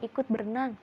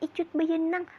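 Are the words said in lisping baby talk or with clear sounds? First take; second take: clear; baby talk. First: The sounds are pronounced clearly, like adult speech. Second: The sounds are lisped, like a toddler's speech. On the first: It models the real word for the child to copy. The speaker calls it right. "kita bisa ngomong yang kosakata sebenarnya" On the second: It models a childish mispronunciation for the child to copy. The speaker calls it wrong. "Kita cadel-cadelin misalkan"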